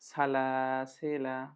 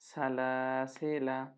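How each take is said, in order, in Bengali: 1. শব্দটি একটি হ্রস্ব স্বরে শেষ হয়। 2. শব্দটি একটি হ্রস্ব স্বরে শেষ হয়।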